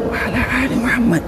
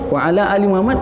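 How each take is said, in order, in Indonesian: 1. Frasa itu diucapkan dengan suara berdesah, seperti berbisik. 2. Frasa itu diucapkan dengan suara penuh dan normal.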